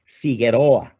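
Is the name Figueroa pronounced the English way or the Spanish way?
Spanish. The name is said with a Spanish pronunciation. "pronouncing the names like Figueroa"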